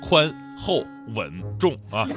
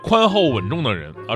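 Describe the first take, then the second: First: The four syllables are said with pauses between. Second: The four syllables are run together smoothly.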